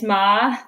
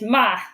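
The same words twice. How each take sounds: First: It is said with the second tone. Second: It is said with the fourth tone. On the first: "Second tone is ma" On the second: "Fourth tone is ma"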